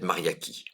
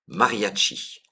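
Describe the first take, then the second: First: The 'ch' is said as a 'k' sound. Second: The 'ch' is said as a 'sh' sound. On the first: "peut-être Mariaki" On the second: "je suis pas sûr de la prononciation"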